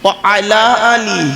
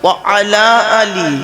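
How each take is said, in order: The two takes are said the same way.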